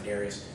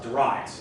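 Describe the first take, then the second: First: The name is said the common way. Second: The name is said the British way. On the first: "most people pronounce it Darius" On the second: "I pronounce it that way. I had a British professor in college that pronounced it that way"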